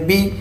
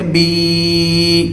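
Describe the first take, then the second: First: The vowel is short. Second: The vowel is long. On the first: "ज़ेर को करते हैं छोटा" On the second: "खड़ी ज़ेर को थोड़ा सा लंबा करते हैं"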